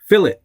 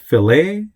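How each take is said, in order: First: It is pronounced short and quick. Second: It is pronounced like the fish dish. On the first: The speaker calls it right. "It's fillet. Okay, say it fast" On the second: The speaker calls it wrong. "It's not fillet, like fillet of fish"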